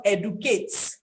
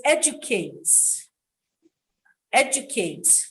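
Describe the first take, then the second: First: Educate said as ed-oo-kate with a plain d; wrong educate. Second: Educate said as ed-joo-kate; British educate. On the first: Retold or imitated. Teacher showing the mistake. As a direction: educate without the j. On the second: Shown as a demonstration. Teacher giving the right form. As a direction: educate with a j sound. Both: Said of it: "not educate".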